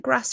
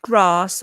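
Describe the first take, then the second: First: Grass with a short A, as in cat; Brummie short A. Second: Grass with a long AH, as in grahss. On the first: Candidate answering boss's question, Brummie short-A Grass. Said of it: "How do you say gra". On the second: Boss quoting the wrong answer, long-A grass. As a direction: stretch grass into southern-style grahss. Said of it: "some Brummies from Solihull say bath and grass". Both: Retold or imitated.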